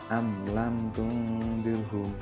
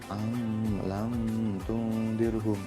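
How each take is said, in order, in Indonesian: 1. Bunyi m diucapkan jelas tanpa dengung sengau. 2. Bunyi m tersamar oleh dengung sengau. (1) "Yang benar adalah ... Jelas" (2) "itu berarti kan dengung atau samar ... itu yang salah"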